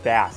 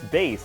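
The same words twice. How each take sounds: First: The vowel rhymes with mass, like the fish. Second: The vowel rhymes with base, like music bass. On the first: The speaker calls it wrong. "I thought bass for the longest time was pronounced bass" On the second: The speaker calls it right. "First time in my life where I hear it pronounced bass"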